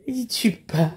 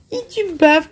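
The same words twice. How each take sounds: First: Unvoiced whisper to the baby; whispered teasing to a baby. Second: Said in the usual way. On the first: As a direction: breathe it softly, no voice. Repeats line to baby, whispered.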